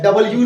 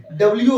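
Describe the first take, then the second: First: "डब्ल्यू" opened out as dabal-yoo; wrong reading. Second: "डब्ल्यू" as compact dabl-yoo; correct reading. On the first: Teacher showing students what not to say, dabal-yoo. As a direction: put a full vowel in "डब्ल्यू": da-bal yoo. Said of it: "डब्ल्यू नहीं होता है". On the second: Teacher restating it for students, compact dabl-yoo. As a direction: run "डब्ल्यू" together as dablyoo. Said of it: "डब्ल्यू होता है". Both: Shown as a demonstration.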